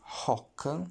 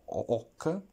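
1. La parola inizia con un suono di h udibile. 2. La parola inizia direttamente con la vocale, senza h. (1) "I don't say hoc" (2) "but I say ho hoc. So the h has no sound"

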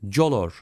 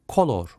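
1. Kelime sert K sesi olmadan başlar. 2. Kelime sert K sesiyle başlar. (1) "color değil" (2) "Bu harf klasik Latince'de K sesini verir"

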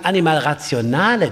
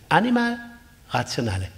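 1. Die Betonung liegt auf dem Wort Rationale. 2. Die Betonung liegt auf dem Wort Animal. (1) "den Akzent auf das Zweite zu legen" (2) "sondern wir müssen sagen"

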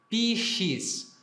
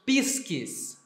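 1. A consoante do meio é um som suave 'sh'. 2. A consoante do meio é um som duro 'sk'. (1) "em latim nós escrevemos esse som de X, aqui nesse caso, com S-C" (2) "Na pronúncia reconstituída, nós leríamos pisques"

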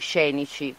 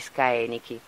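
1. Si pronuncia nello stile italiano più recente. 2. Si pronuncia nello stile classico restituito. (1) "prima pronunciavamo pure noi scenici"

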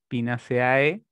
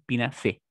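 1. La terminación se lee letra por letra, 'ce-a-e'. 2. La terminación se acorta a 'ce-e'. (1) "en español está permitido también eh, pronunciarlo como se lee" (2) "en estricto rigor, si queremos ser más puristas"

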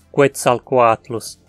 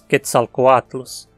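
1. O primeiro som é K seguido de um som de W. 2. O primeiro som é um K simples. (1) "Não dizemos Quetzalcoatlus" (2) "o QU antes de E sempre soa só como um K"

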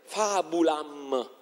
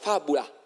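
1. La parola termina con il suono M. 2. La parola termina con la vocale A lunga. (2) "la M finale non si pronunciava e la A ultima si allungava"

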